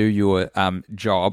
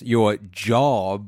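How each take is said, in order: First: It is said in a plain, neutral tone. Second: It is said in a sarcastic, quoting tone. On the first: "I'm doing air quotes. You can't capture that in audio" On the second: "You could if I said it like this"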